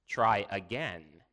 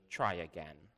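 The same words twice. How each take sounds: First: Slow, firm "Try again"; insistent repeat. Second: Low, quiet sternness; stern. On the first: Father pressing his daughter to answer, insistent. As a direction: spell it out slowly and firmly. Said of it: "he repeated". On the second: Father warning his third daughter, quite stern. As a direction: say it low and firm. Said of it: "and then quite sternly". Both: A narrator's reading.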